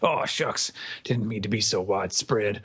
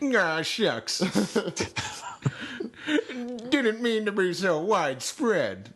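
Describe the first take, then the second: First: It is said in the intended Fujitora voice. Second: It is said in a Mister Magoo-like voice.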